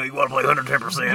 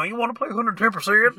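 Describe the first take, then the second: First: Brendan Fraser voice. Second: High goofy Brendan Fraser and Kermit voice; squeaky Kermit-style jock voice; Brendan Fraser mixed with Kermit. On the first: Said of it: "that Brendan Fraser voice when he played basketball". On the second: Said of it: "Mixed with Kermit". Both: Retold or imitated.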